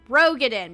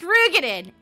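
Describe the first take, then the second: First: It is said like 'roe-get-in'. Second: It is not said like 'roe-get-in'. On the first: This is how players assumed it was said for years. "we have all thought it was pronounced Roegadyn because R O E, get in" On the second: This is how the game itself now says it. "when they pronounced it, it was pronounced Roegadyn"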